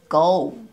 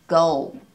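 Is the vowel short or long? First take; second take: long; long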